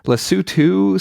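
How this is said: The name is said the British way. "seems to be the U K pronunciation"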